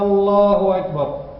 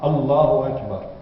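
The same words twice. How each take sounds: First: It runs on from the prayer, dropping the A. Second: It starts with a clearly voiced A sound. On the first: The speaker calls it wrong. "Il a lié le dua avec quoi? Avec le takbir, c'est pas bien" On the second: The speaker calls it right. "le A doit sortir"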